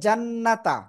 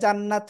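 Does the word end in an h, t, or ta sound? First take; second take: ta; t. First: The word ends in a t plus vowel. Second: The word ends in a bare t sound. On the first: "মিলিয়ে পড়লে জান্নাতা" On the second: "থেমে পড়লে জান্নাত হয় না"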